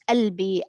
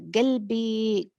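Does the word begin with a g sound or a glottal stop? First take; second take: glottal stop; g sound. First: The word begins with a glottal stop. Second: The word begins with a g sound. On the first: This is the form now preferred. "they prefer now to use" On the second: This is the form being dropped. "they eliminate this feature, which is like, for example"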